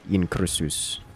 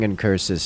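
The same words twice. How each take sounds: First: It is said with a Latin-style pronunciation. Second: It is said with an American pronunciation. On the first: "as a more European or I guess like Greek, Latin accents" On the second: "in the American accents"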